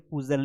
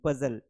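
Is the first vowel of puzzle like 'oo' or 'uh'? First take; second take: oo; uh. First: The first vowel sounds like 'oo'. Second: The first vowel sounds like 'uh'. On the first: The speaker calls it wrong. "पुजल नहीं पढ़ेंगे" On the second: The speaker calls it right. "इसको पजल पढ़ेंगे"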